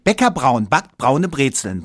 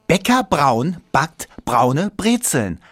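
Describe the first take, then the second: First: It is said very fast. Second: It is said at a normal, moderate speed.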